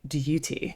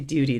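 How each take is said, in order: First: It is said in a posh British accent. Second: It is said in a plain American accent. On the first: This is how the royals say it. "they say duty" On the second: This is not how the royals say it. "They don't say duty"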